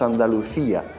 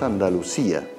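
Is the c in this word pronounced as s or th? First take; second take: th; s. First: The c is pronounced as a th sound. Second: The c is pronounced as an s sound. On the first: This is the Castilian way, not the local one. "no decimos Andalucía" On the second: This is how the locals say it. "decimos Andalucía"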